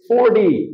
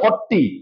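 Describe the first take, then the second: First: The t is said soft and single. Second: The t is said hard and doubled. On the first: The speaker calls it right. "It's ফোরটি" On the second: The speaker calls it wrong. "অনেকে double টি দিয়ে একেবারে ফর্টি"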